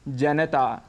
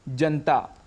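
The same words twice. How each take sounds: First: The vowel after the n sound is fully pronounced. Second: The vowel after the n sound is dropped. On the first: The speaker calls it right. "पूरा बोलना चाहिए" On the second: The speaker calls it wrong. "यहाँ पर न में जो अ स्वर है उसको हम छोड़ देते हैं"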